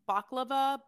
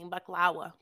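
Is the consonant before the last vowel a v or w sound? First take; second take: v; w. First: The consonant before the last vowel is v. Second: The consonant before the last vowel is w. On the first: This is how many people commonly say it. "some people say baklava" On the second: This is the Levantine way of saying it. "but the Levantine way"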